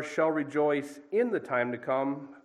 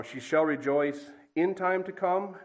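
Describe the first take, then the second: First: "rejoice in" joined as one idea, slowly; slow reading that ties "rejoice" to "in", then "the time to come"; stress on REJOICE IN. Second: "in time to come" set apart, slowly, as one phrase; slow, deliberate reading that leans on "time to come"; stress on IN TIME TO COME. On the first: Preacher giving the verse's other meaning, stress on "rejoice in". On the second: Preacher showing how emphasis changes a verse, stress on "time to come". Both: Shown as a demonstration. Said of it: "emphasis on different words".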